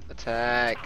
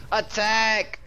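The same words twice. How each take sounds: First: Said in the usual way. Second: High, loud rallying command; battle call. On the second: Acted. Streamer rallying teammates with a loud battle command. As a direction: call the charge to the troops.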